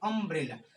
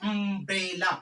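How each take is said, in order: First: The first vowel comes out relaxed from the throat. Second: The first vowel is pushed out with effort. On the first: The speaker calls it right. "आप बोलते हैं अम्ब्रेला। तो अ बोलने में आपको मेहनत नहीं करना पड़ता है।" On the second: The speaker calls it wrong. "आप ऐसे नहीं बोलते"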